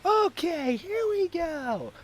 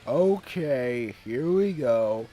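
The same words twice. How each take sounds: First: It is said in a happy, excited tone. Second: It is said in a serious, dutiful tone.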